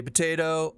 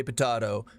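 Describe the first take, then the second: First: "potato" with a long A, po-tay-to; potato with the ay sound; potay-to. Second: "potato" with a broad A, po-tah-to; potato with the ah sound; potah-to. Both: Shown as a demonstration. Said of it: "You say potato, I say potato".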